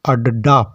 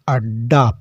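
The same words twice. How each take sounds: First: The d is followed by a full vowel. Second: The d is doubled with no vowel between. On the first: "अगर यह हलंत का चिन्ह नहीं होता तो इसको हम अड्डा पढ़ते" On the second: "इसका मतलब है आधा डा है, इसको हम अड्डा पढ़ेंगे"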